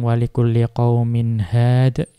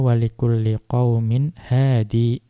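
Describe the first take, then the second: First: The last word ends on a consonant. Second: The last word ends on an 'ee' vowel. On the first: Most reciters read it this way when pausing. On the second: One reciter reads it this way when pausing.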